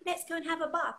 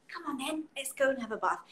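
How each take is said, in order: First: Put-on higher, inviting a baby to bath time; talking to a baby. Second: A lightly voiced coaxing parent; talking to a baby. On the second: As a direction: gently coax a baby to the bath. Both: Shown as a demonstration. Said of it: "so say".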